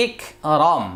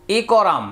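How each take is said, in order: First: ইকরম as ik-rom, first syllable closed on k; joined at the jazm. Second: ইকরাম with the consonants kept apart, i-ko-ram; letters read unjoined. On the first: Teacher showing learners the jazm reading, joined syllable. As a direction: stop on the k in ইকরম, then rom. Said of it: "জজমের উচ্চারণ বাংলা হসন্তের উচ্চারণের মতো". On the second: Teacher showing learners the spelled form, letters read unjoined. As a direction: say ইকরাম as three open syllables. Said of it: "উচ্চারণ হবে". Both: Shown as a demonstration.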